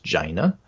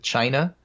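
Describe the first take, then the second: First: The word begins with a j sound. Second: The word begins with a ch sound.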